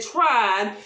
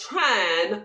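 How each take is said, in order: First: Trying drawn out slowly and pressed; slow, stressed trying. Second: Said in the usual way. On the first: Shown as a demonstration. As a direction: lean on the word trying, slow. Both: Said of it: "I said trying".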